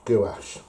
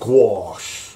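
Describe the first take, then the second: First: It is said plainly, the way it is spelled. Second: It is said in a posh, refined way. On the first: This is how the speaker says it. "I just say it as I read it" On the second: This is how posh people say it. "as posh people say"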